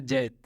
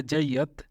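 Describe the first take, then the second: First: "जैत" as one syllable, jait; spoken pronunciation. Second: "जैयत" in two syllables, jai-yat; spelling pronunciation. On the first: Teacher showing how it is actually spoken, spoken pronunciation. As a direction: run "जैत" together, no y-a in the middle. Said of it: "लेकिन बोला जाता है जैत". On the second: Teacher reading the written Arabic form, spelling pronunciation. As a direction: say "जैयत" with a clear y and second vowel. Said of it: "वैसे लिखा जाता है जैयत". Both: Shown as a demonstration.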